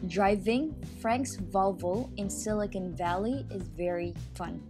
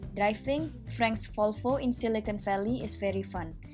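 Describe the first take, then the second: First: It has an American accent, V distinct from F. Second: It has an Indonesian accent, V sounding like F. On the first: "the same sentence in American accent where there is a difference between the F and the V" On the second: "sentence in an Indonesian accent, dimana nggak ada perbedaan antara huruf V dan huruf F"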